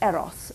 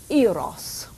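First: The name is pronounced the Greek way. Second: The name is pronounced the usual English way.

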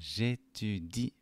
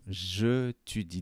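First: Je is elided into the following vowel. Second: Je is said as a separate syllable. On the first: The speaker calls it right. "発音はj'étudie" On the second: The speaker calls it wrong. "アクセントがないと、je étudieだけど"

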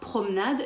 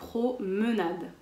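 First: The middle e is dropped. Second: The middle e is pronounced. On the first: The speaker calls it wrong. "Attention, pas promenade" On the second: The speaker calls it right. "mais bien promenade"

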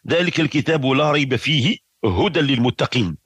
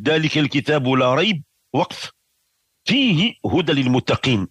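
First: The pause comes right after 'fihi'. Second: The pause comes right after 'la rayb'. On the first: "أو نقول" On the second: "إما أن نقول ذلك الكتاب لا ريب وقف"

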